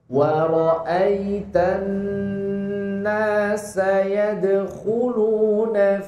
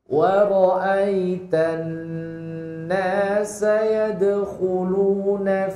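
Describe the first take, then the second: The two takes are said the same way.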